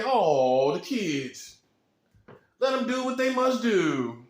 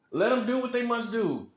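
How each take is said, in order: First: Soft manager. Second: Said in the usual way. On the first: Acted. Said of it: "what you gonna say?".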